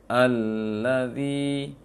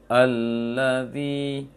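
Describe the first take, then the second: The two takes are said the same way.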